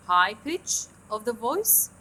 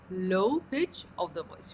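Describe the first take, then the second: First: "High pitch" said strongly, "voice" lifting at the end. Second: "low pitch" drawn out slowly and falling. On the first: Teacher showing students the top of the glide, raised high. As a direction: stretch "High pitch of the voice" slowly with a rising finish. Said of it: "It consists of a fall in the voice from a high pitch". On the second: Teacher showing students the bottom of the glide, sinking low. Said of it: "to a very low one". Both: Shown as a demonstration.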